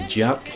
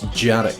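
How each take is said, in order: First: No vowel is heard between the R and K. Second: An extra vowel is heard between R and K. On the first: The speaker calls it wrong. "you don't just say Jark" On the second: The speaker calls it right. "there's a hidden syllable between the R and the G"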